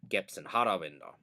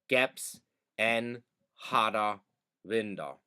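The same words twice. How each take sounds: First: It is spoken at a normal conversational speed. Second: It is spoken slowly and carefully.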